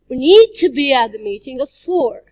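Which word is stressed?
need. The word 'need' is stressed. "If we stress the word need"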